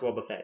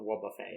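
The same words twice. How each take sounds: First: The name is given a plain English ending. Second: The name is given a French-style ending. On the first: "it is pronounced Wobbuffet" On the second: "Why is it not the French?"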